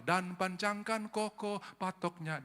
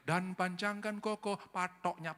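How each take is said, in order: First: Said in the usual way. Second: Put-on sung, Balinese accent, slow, hard T in "patoknya"; Balinese sung line. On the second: Pastor imitating how Balinese sing the hymn, Balinese accent. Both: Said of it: "di Bali nyanyi".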